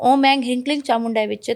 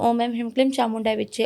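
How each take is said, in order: First: The seed syllables end in an ng sound. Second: The seed syllables end in an m sound. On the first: This is the tantric way, meant to put in energy. "जब तंत्रोक्त आप करोगे" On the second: This is the ordinary way householders chant it. "हम normally कहते हैं"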